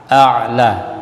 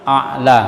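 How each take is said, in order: First: A'la with a drawn voiced ain; throat ain. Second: A'la with a glottal stop; hamzah for ain. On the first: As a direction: squeeze the middle of a'la in the throat. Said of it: "a dengan ain". (a'la dengan ain yang jelas) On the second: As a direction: catch a'la in the middle, no ain. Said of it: "bukan hamzah dengan hamzah". (a'la dibaca dengan hamzah) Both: Shown as a demonstration.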